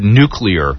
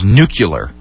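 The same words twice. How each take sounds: First: The word is said as 'nu-clear'. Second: The word is said as 'nu-cu-lar'. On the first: The speaker calls it right. "the word nuclear" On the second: The speaker calls it wrong. "pronouncing the word nuclear as nuclear"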